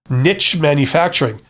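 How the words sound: Niche is said the American way.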